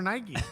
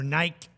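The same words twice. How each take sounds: First: Nike is pronounced the American way. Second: Nike is pronounced the British way.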